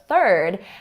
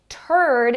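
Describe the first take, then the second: First: It begins with a soft th sound. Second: It begins with a plain t sound. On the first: The speaker calls it right. "instead of third" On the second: The speaker calls it wrong. "turd instead of third"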